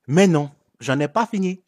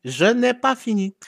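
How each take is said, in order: First: Said in the usual way. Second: "pas" pitched high and stressed in "Je n'ai pas fini"; emphatic repeat. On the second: Shown as a demonstration.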